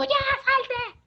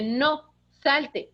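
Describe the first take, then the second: First: High shouted command to the dog; mock yell. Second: Firm, steady command; firm own voice. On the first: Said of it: "no dije grítalo". (grito agudo imitando al hijo) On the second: Shown as a demonstration. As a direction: say it firmly in your own voice. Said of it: "Con tu misma voz dile". (con firmeza, en su voz natural)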